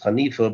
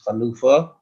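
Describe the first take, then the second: First: The middle vowel is an 'ee' sound. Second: The middle vowel is an 'oo' sound. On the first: The speaker calls it wrong. "often somewhat mispronounced as Hanifa" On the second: The speaker calls it right. "the real correct pronunciation word is Chanufa"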